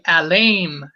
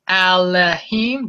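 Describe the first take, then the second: First: No h sound comes before the last syllable. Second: An h sound comes before the last syllable. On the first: The speaker calls it right. "It would be better to say Alaim" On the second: The speaker calls it wrong. "Do you say Alahim? No"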